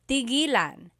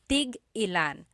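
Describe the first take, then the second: First: 'Tig' runs smoothly into 'ilan' without a stop. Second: A glottal stop separates 'tig' from 'ilan'. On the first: It means to stop. "When there's no hyphen, ... It's just one word" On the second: It asks how many of each. "you have to have that glottal stop"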